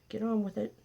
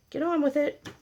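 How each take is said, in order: First: A light, higher teasing nudge; mock impatient nudge. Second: Higher pitched, playful exasperation; mock exasperated urging. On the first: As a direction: hurry the flowers along playfully. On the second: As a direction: pretend you've lost patience with the flowers. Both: Repeats the line, second more urgent.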